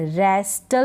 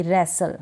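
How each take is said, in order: First: "रेस्टल" with the T sounded; mispronounced "रेस्टल", T after the S; wrong pronunciation. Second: "रेसल" with a silent T; correct pronunciation. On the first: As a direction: say a hard T in "रेस्टल". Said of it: "रेस्टल नहीं पढ़ूंगी". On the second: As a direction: leave out the T in "रेसल". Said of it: "क्या पढ़ूंगी". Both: Shown as a demonstration.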